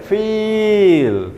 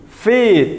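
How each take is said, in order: First: "Feel" with the ee dragged out far too long, high; overlong vowel. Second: "Feed" with a moderately long ee, high and falling; high, loud teacher's model of "Feed"; slightly long vowel. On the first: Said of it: "tidak sampai". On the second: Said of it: "sedikit agak panjang". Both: Shown as a demonstration.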